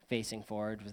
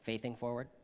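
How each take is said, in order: First: The s in the first word is a clear s. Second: The s in the first word sounds like th.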